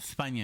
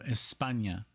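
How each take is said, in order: First: The S is said with a lisp. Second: The S is said as a plain hiss. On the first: "they kind of say like España" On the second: "instead of España"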